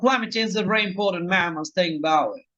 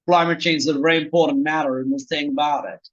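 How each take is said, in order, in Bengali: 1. এটি স্পষ্টভাবে ব্রিটিশ ইংরেজি উচ্চারণে বলা হয়েছে। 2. এটি আমেরিকান ইংরেজি উচ্চারণে বলা হয়েছে। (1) "ব্রিটিশরা বললে বলতো" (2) "আমেরিকানরা বললে বলতো"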